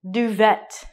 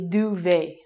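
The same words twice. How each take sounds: First: It is pronounced the way it is spelled. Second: It is pronounced the French way. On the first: "It looks like duvet" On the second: "you say this properly and you say duvet"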